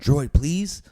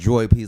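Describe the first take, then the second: First: It sounds pleading, like asking for help. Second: It sounds dismissive, like brushing someone off.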